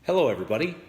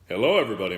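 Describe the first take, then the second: First: It is said in a higher, lighter voice. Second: It is said in a deep, low voice. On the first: This is the earlier natural speaking register. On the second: This is the trained new default voice.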